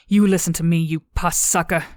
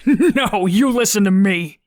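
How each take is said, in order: First: A touch of controlled anger; angry confrontation. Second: Loud, high, words bursting through laughter; howling with laughter. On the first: Cadet turns on Derp, firm and angry. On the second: Derp mocking the cadet's threat, howling with laughter. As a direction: hoot it out, helpless with laughter. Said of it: "through his howls of laughter". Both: A narrator's reading.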